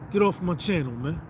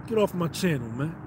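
Both takes have the same delivery.

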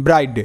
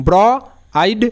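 First: Said in the usual way. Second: "ব্র" and "আইড" split by a pause; sounding out. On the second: Shown as a demonstration. Teacher shows learners the word's parts, segmented "ব্র, আইড". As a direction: say "ব্র", stop, then "আইড" on its own. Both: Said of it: "কারণ এখানে শব্দটা দেখো".

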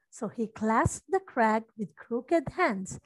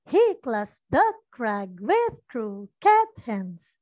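First: "clasps", "crag", "crooked", "hands" stressed, the small words light; iambic stress. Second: Deliberately misplace the beat; wrong stress. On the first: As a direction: read it in a da-DUM beat. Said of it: "we accent the important words". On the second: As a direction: stress shifted onto "he", "the", "with", away from "clasps" and "crag". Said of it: "so that's the opposite". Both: Shown as a demonstration.

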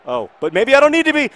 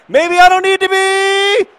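First: High, louder, hope building; rising excitement. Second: Very high, loud and slowed; near-shout of excitement. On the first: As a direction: catch your breath as the chance opens. Sudden chance on goal. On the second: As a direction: peak of hope before the goal. Repeated as the shot goes in. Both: Real, not acted.

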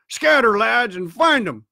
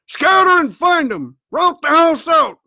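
First: Raised order, higher at first; urgent command. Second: Loud, very high shouted orders; shouted reiteration. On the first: Blind man orders his lads to search, raised urgent command. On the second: Blind man repeats his search order, shouting hard. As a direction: bellow the order with full force. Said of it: "reiterated Pew". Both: A narrator's reading.

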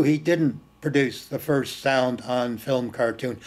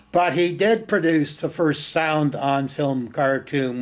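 First: Said in the usual way. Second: "did" punched in contrast, falling at the end; stress on DID. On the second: Shown as a demonstration. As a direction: lean hard on "did" to correct the denial. Counters the denial just conceded.

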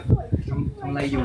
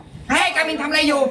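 First: Slow, low and soft; soft low-pitched question, drawn out; low natural voice. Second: Drawn-out, high-pitched call; high, squeaky-small voice calling someone; high-voiced demo. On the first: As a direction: let the voice slip down low, unhurried. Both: Shown as a demonstration. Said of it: "เผลอพูดเสียงแบบปกติตอนเสียงต่ำ".

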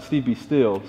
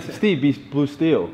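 First: Said in the usual way. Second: "blue steel" drawn out slowly as a pose name; stressing blue steel. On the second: Retold or imitated. Misheard photographer's order, slow "blue steel". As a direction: savor "blue steel" like a catchphrase. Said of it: "I thought you said".

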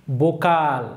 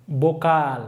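Both takes have the same delivery.

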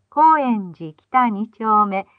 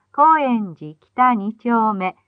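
Both takes have the same delivery.

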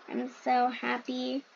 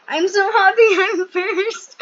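First: Said in the usual way. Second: High, loud, slow, laughing through the words; overjoyed laughing winner cry; ecstatic winner. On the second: Pretend. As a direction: squeal out the victory with a laugh.

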